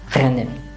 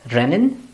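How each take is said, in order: First: The R is made deep in the throat. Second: The R is a plain front R.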